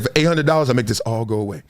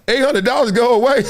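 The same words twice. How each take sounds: First: Lowered, hushed hustler offer; low shady guy voice. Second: High, louder disbelieving echo; incredulous. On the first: Driver quotes the guy naming his price, low and sly. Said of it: "he said". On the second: Driver echoes the bribe back to the guy in disbelief. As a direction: repeat the offer in mock disbelief. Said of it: "I was like". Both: Retold or imitated.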